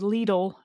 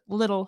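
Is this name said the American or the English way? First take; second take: American; English. First: The name is said the American way. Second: The name is said the English way, like little. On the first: "Americans will say Lidl" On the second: "in England uh, you pronounce it little"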